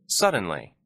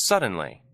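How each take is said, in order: Both takes have the same delivery.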